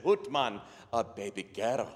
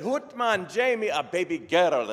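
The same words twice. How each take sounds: First: Subdued Scottish father, falling away; deflated Scottish reply; Scottish brogue. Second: Excited Scottish doctor, high and loud; Scottish brogue. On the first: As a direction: echo the news underwhelmed, in a put-on Scottish brogue. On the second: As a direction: announce it joyfully in a put-on Scottish brogue. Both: Acted. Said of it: "best Scottish brogue I can come up with".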